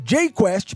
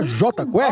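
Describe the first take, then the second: First: The J is said as the English letter name. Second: The J is said as the Portuguese letter name. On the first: This is the band's original name. "que é o J em inglês" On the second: This is the band's changed name. "para J-Quest em português"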